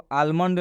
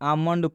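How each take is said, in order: First: The L sound is pronounced before the M. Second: The L is silent, with no L sound. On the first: The speaker calls it wrong. "हम इसको आलमंड नहीं पढ़ेंगे" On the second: The speaker calls it right. "आमंड पढ़ेंगे"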